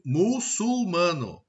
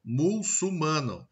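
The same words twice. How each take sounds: First: Said in the usual way. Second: Slow "muçulmano" as "mulsumano"; "muçulmano" with l in the first syllable; swapped-sound mispronunciation. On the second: Shown as a demonstration. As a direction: move the l of "muçulmano" forward: "mul-su-mano". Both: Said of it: "eu tenho essas trocas, essas inversões".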